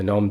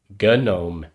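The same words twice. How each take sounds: First: The word starts with no G sound. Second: The word starts with a hard G sound. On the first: The speaker calls it right. "I think the G is silent though" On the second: The speaker calls it wrong. "some people pronounce it GNOME"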